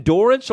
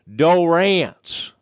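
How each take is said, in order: First: Said in the usual way. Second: "Dorrance" as doh-RANTS, higher, drawn-out second syllable; Gil Brandt. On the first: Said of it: "or, uh, as Gil Brandt would say". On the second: Retold or imitated. Podcast host mimicking a colleague's name for a player, "Dorrance" said doh-RANTS. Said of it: "as Gil Brandt would say".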